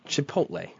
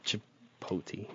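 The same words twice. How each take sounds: First: "Chipotle" ending in a clear "lay"; quiet "Chipotle" with the L sounded; correct pronunciation. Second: "Chipotle" ending in "tee", no L; slow, hushed "Chipotle" misread as chi-POH-tee; mispronunciation. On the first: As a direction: say "Chipotle" as chi-POHT-lay. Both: Shown as a demonstration. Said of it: "not Chipotle".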